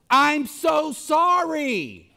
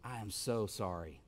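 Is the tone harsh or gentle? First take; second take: harsh; gentle. First: It is said in a harsh, insincere tone. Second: It is said in a gentle, sincere tone.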